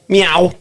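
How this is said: It is said in a Scouse accent.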